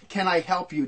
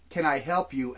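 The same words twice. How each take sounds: First: Said in the usual way. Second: A polite offer with suspicion under it; mock helpful, really asking what you're up to; veiled suspicion. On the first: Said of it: "Don't tell me that". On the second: To a stranger walking by, veiled suspicious offer. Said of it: "that veiled".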